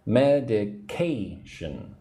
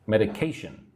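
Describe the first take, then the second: First: Medication very slow, ca stressed; slow drill of Medication with stress on ca; stress on third syllable. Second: Said in the usual way. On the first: Shown as a demonstration. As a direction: stretch out Medication, leaning on ca. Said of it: "the third syllable ... that has the emphasis". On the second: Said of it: "that has the emphasis".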